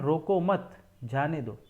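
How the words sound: The pause comes after 'mat'.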